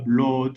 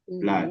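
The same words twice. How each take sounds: First: The double O is not said like an A. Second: The double O is said like an A. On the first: The speaker calls it wrong. "on dit pas blood" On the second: The speaker calls it right. "les deux O sont prononcés comme des A"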